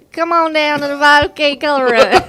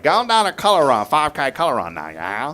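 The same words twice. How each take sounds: First: Shy stab at Cajun, higher and louder; half-hearted Louisiana Cajun attempt; tentative Cajun accent. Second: Loud, high-starting mock Cajun; playful Cajun announcement; Louisiana Cajun accent. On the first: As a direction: try a Cajun accent, breaking into laughter. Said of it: "your best, like, Louisiana Cajun accent". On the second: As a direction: demonstrate a hammed-up Cajun. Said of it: "Louisiana Cajun accent". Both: Shown as a demonstration.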